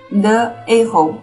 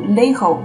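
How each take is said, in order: First: The article keeps its vowel before the noun. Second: The article's vowel is dropped before the noun. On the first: The speaker calls it right. "比如说the aho the aho" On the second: The speaker calls it wrong. "而不能省音读leho 是不可以的"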